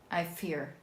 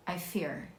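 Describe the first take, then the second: No difference in how they are said.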